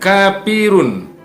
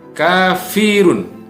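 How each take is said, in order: First: The middle consonant is a p sound. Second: The middle consonant is an f sound. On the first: The speaker calls it wrong. "Jadi bukan kapirun" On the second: The speaker calls it right. "huruf fa"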